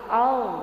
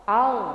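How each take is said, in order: The two takes are said the same way.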